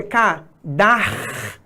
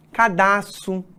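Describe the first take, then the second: First: Cadarço with a long, clearly sounded R; ca-DAR-ço, broken up to show the R; correct pronunciation. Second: Cadastro said without the proper R, as people often say it; casual faulty cadastro, R left out; common mispronunciation. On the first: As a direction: stretch the R in the middle of cadarço. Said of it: "o correto é". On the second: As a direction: say cadastro the everyday wrong way. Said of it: "é muito comum de a gente encontrar as pessoas falando". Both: Shown as a demonstration.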